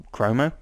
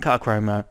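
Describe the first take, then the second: First: "chromo?" asked back with a rising, doubtful tune; puzzled rise. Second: Said in the usual way. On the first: Real, not acted. Reviewer questions his own slip, puzzled rising tone.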